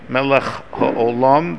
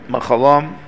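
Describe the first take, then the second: First: Both words are said fully with every consonant. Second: The words run together with consonants dropped. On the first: The speaker calls it right. "if you don't specifically pause after the word Melech" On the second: The speaker calls it wrong. "skipping a whole bunch of consonants there"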